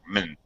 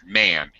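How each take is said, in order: First: It has a weak, reduced vowel. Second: It has a full, clear vowel. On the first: It is the end of a compound noun. "when it's part of a compound noun, it's more like man" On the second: It is the word on its own. "When you see the word man, it's man"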